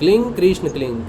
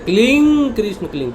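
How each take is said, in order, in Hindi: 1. 'kling' में स्वर छोटा रखा जाता है। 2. 'kling' में स्वर लंबा खींचा जाता है। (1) "वो सिंपल है क्लिंग" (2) "वो क्लिंग में जो ई आता है ना, उसको डबल कर रहे"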